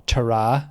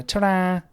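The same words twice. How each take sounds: First: Said in the usual way. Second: Higher, drawn-out Scouse "ta-ra". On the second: Acted. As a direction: imitate a Scouse goodbye. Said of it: "very Scouse thing".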